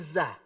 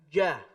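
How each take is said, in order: First: The syllable starts with a hissing z sound. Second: The syllable starts with a j sound, no hiss. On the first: The speaker calls it wrong. "Bukan za" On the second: The speaker calls it right. "Jangan ada desisnya"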